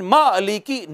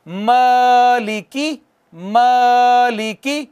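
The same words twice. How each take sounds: First: मालिकी with a clipped, jerked ा; wrong way, jolt मालिकी; jerked alif. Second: मालिकी with the first ा held two beats; long alif. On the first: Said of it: "झटका नहीं देना". (मालिकी झटके के साथ, गलत तरीका) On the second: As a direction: stretch मालिकी smoothly. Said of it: "कितना खींचेंगे? एक अलिफ के बराबर". (मालिकी, अलिफ दो हरकत तक खींचकर) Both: Shown as a demonstration.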